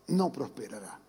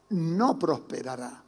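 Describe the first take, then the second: First: Quiet solemn echo. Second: Said in the usual way. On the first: Shown as a demonstration. Pastor repeats the verse to church, hushed and low. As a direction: drop it much softer and lower, like an echo.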